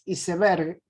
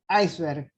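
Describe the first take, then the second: First: Iceberg is pronounced with Spanish sounds. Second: Iceberg is pronounced with English sounds. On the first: This is not how people in Argentina say it. "la forma en que lo decimos no es iceberg" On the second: This is how people in Argentina say it. "es iceberg"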